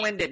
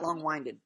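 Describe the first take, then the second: First: The 'wind' has a short vowel, like air. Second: The 'wind' has a long vowel, like winding. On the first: Someone talks too much, blowing air. The speaker calls it right. "Long wind. ... It's winded. Blowing" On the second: Something twists like a road. The speaker calls it wrong. "It's not winding road"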